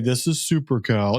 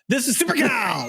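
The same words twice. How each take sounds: First: It is said plainly with little energy. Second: It is said with strong, punchy energy. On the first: The speaker calls it wrong. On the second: The speaker calls it right.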